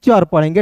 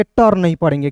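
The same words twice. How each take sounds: First: चर with a CH sound; correct sound demo. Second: टर with a hard T; hard retroflex "t" opening on टर; wrong sound demo. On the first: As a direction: say चर as "char", starting with CH. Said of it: "क्या पढ़ेंगे". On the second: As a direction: say टर as "tar", starting with T. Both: Shown as a demonstration.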